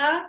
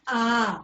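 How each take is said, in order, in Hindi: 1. यह स्वर बस थोड़ी देर के लिए बोला जाता है। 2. यह स्वर लगभग दोगुनी देर तक बोला जाता है। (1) "हर्ष स्वर बोल रहे हैं" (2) "दीर्घ स्वर बोल रहे हैं"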